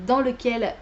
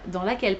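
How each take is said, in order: First: "lequel" said with the wrong gender, masculine; slip of the tongue. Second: "laquelle" said with the right gender, feminine; self-correction. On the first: Booktuber slips before correcting herself, plain slip. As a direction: say "dans lequel" as the mistaken masculine form. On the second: Booktuber corrects her own slip, plain correction. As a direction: fix it to "dans laquelle", a touch lower. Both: Real, not acted.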